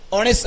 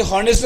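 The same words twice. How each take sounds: First: ऑनेस्ट with no h at the start; silent H. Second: हॉनेस्ट with a sounded H; wrong pronunciation with H. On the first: Teacher repeating the correct form for the class, ऑनेस्ट with silent H. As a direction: begin ऑनेस्ट straight on the o vowel. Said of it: "ते ऑनेस्ट असतं". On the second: Teacher repeating the mistake for the class, हॉनेस्ट with H sounded. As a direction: begin हॉनेस्ट on an audible h. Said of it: "ते हॉनेस्ट नसतं". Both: Shown as a demonstration.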